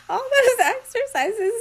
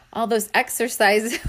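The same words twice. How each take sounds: First: Much higher, giggling through it; fighting off the giggles; giggly high retry. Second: Said in the usual way. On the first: Real, not acted. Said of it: "getting all giggly". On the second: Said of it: "I can't read this".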